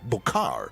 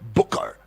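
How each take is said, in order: First: The name ends with an open 'kar' sound. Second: The name ends with an English 'ker' sound. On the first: The speaker calls it right. "this one is a Bukar" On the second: The speaker calls it wrong. "I didn't pronounce it correctly"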